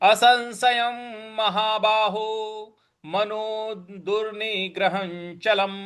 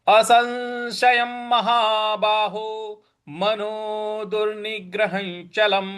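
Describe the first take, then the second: No difference in how they are said.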